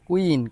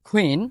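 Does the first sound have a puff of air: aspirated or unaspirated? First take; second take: unaspirated; aspirated. First: The first k sound has no puff of air. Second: The first k sound has a strong puff of air. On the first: The speaker calls it wrong. "এতদিন আমরা এটাকে কিউ বলতাম, কুইন, কুয়েকশন এভাবে বলতাম" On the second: The speaker calls it right. "এই সাউন্ডটা আমাদের বাংলা ক্ষয়ের মতো উচ্চারণ করতে হবে। তাহলে লিসেন"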